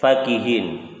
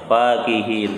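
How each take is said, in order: First: The first vowel is kept short. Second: The first vowel is held long. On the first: "fa-nya pendek" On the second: "fa-nya panjang"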